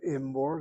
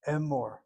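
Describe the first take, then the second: First: The word begins with an 'i' vowel. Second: The word begins with an 'e' vowel. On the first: The speaker calls it wrong. "We don't have Imor" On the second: The speaker calls it right. "Only now we have a Hataf Sagol"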